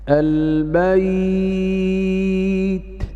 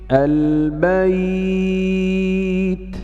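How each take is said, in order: Both takes have the same delivery.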